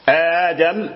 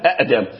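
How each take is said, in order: First: It starts with one glottal stop and a long a. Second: It starts with two glottal stops in a row. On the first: This is the form actually used. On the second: This is the underlying original form.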